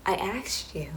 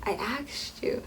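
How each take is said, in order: First: Said in the usual way. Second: Whispered slowly, pointed. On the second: Shown as a demonstration. To viewers about asking him, a slow whisper. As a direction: breathe it out like a reminder. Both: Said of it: "repeated I asked you".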